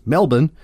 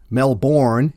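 First: "Melbourne" as MEL-bun; local Australian pronunciation. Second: "Melbourne" as MEL-born; pronounced as spelled. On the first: Showing how Australians say it, "Melbourne" as MEL-bun. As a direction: reduce the end of "Melbourne" to bun. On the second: Poking fun at Australian names, "Melbourne" as MEL-born. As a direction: read "Melbourne" with a full born at the end. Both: Shown as a demonstration. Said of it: "is pronounced".

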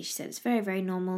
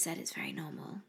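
First: Said in the usual way. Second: Whispered and soft, a private aside. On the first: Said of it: "she just said it's very normal". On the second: Real, not acted. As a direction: drop to a hush on the repeat.

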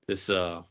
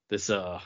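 No difference in how they are said.

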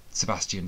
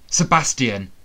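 First: Said in the usual way. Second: Sharp alarmed call of his name; startled cry. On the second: A narrator's reading. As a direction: blurt the name in shock. Recognising the attacker, alarmed.

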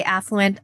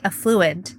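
First: Affluent said AFF-loo-ent; affluent, first-syllable stress. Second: Affluent said uh-FLOO-ent; affluent, second-syllable stress. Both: Shown as a demonstration. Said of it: "I personally say affluent".

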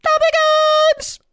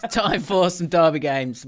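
First: High, slow, drawn-out show announcer; jingle-style announcement. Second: Said in the usual way. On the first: Acted. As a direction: sing out the segment title like a presenter.

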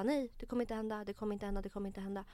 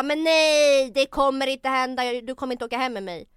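First: Said in the usual way. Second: Loud, insistent shout of refusal; retold yelling. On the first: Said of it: "så att jag bara". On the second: Woman retells shouting no at a pushy date on the subway. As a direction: yell it so the whole carriage hears. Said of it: "Skrik inte!".

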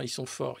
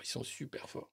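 First: Said in the usual way. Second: Breathy whisper aside. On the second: Real, not acted. Repeats then whispers.

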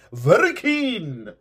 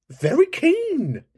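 First: Slow drawn-out tease in a different voice. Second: Very high, slow drawn-out tease; drawn-out teasing. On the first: Repeated teasing line. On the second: Host teasing an eager caller, very high and slow. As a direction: stretch it out, way up high. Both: Pretend.

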